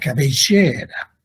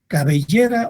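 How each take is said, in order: First: It is said in an Argentine Spanish accent. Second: It is said in a non-Argentine Spanish accent. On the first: "como los argentinos que le ponen énfasis" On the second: "suenan igual"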